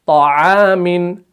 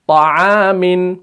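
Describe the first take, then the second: Both takes have the same delivery.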